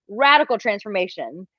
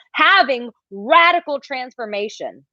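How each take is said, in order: First: Said in the usual way. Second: Slow, weighty stress on radical transformation; drawn-out emphasis. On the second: Shown as a demonstration. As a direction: lean into "radical transformation" slowly.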